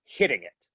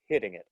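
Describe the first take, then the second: First: Hitting it pressed down with weight, falling. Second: Said in the usual way. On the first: Shown as a demonstration. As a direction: lean your weight down onto "hitting it". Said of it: "Weight is".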